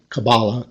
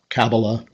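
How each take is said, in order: First: The stress is on the second syllable. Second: The stress is on the first syllable. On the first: "with the accent on each of them" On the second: "with the accent on each of them"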